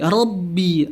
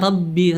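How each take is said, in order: First: The R sound is thick and heavy. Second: The R sound is thin and light. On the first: The speaker calls it right. "ro punya sifat tafkhimnya di sini ... jadi tebel" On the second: The speaker calls it wrong. "dia menipiskan huruf ro pada lafaz Robbi, dia bacanya Rabbi"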